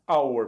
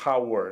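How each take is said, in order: First: The word starts directly with a vowel sound. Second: The word starts with a breathy H sound. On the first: The speaker calls it right. "então é hour. Primeiro som, som de vogal" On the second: The speaker calls it wrong. "o primeiro som não é o do H, não tem aquele som de R, não é hour"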